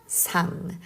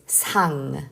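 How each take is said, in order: First: The first consonant sounds like a Korean ㅅ. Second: The same.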